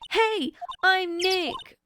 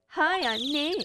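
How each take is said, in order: First: It is said loudly. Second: It is said quietly.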